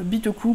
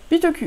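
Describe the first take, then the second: First: Bitoku ending in an "oo" sound; Japanese-style pronunciation. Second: Bitoku ending in a French "u" sound. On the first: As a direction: say Bitoku as Bee-to-koo. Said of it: "prononcer avec un certain accent". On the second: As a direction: say Bitoku with a tight French U at the end. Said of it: "on prononce les U". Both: Shown as a demonstration.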